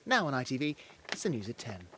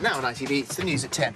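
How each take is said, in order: First: It is said in a serious tone. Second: It is said in a casual tone.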